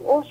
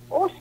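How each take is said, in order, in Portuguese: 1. É dito com um tom de reprovação. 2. É dito com um tom de surpresa agradável. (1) "Ou então uma reprovação" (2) "É como uma surpresa, vamos dizer assim"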